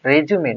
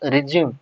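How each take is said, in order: First: It is said as the noun for a CV. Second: It is said as the verb meaning continue. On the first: A document sent to an employer. The speaker calls it right. "this word pronounced as a resume" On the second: A different word with another meaning. The speaker calls it wrong. "not resume"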